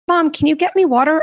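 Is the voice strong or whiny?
strong. The request is said in a strong voice. The speaker calls it right. "nicer voice themselves. ... It's such a strong voice"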